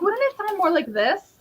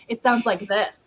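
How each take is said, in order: First: Imitated editor's higher-pitched Boston accent. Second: Lightly demonstrated Western Massachusetts accent. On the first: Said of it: "no, that's Boston". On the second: Shown as a demonstration. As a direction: show a Western Massachusetts accent at normal pitch. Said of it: "She has a Western Massachusetts accent".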